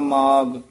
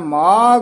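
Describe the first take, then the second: First: The final consonant is a plain g. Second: The final consonant is an aspirated gh. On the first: The speaker calls it wrong. "ਮਾਘ ਨੀ ਕਹਿ ਦੇਣਾ ਮੰਮੇ ਗੰਨਾ ਗੱਗਾ" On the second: The speaker calls it right. "ਘੱਗਾ ਲਾ ਕੇ ਉਚਾਰਨ ਕਰਨਾ"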